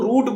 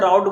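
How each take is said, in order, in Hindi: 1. स्वर 'boot' के 'oo' जैसा लगता है। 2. स्वर 'cow' के 'ow' जैसा लगता है। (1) "नॉर्मली हम लोग का जैसे बोल बोलचाली में" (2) "इंग्लिश में तो शायद राउट ही बोलते हैं"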